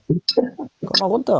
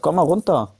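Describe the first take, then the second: First: Very slow, drawn-out calm down; slow, soothing plea to cool off. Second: Said in the usual way. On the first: Real, not acted. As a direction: stretch each word to settle him.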